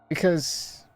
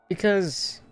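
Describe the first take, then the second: Both takes have the same delivery.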